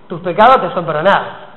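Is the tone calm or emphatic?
emphatic. It is said in a pointed, emphatic tone. It is a call to pay attention. "con esa frase y con otra entonación: ¡ey!"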